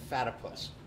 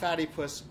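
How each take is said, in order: First: It sounds like one word rhyming with platypus. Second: It sounds like the two words fatty puss. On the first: The speaker calls it right. "rhymes with platypus" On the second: The speaker calls it wrong. "Not Fatty Puss"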